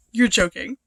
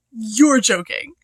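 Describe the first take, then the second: First: Said in the usual way. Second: YOU'RE stretched out and loud; emphatic disbelief. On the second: Real, not acted. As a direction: lean slowly and hard on YOU'RE. Repeats it in disbelief.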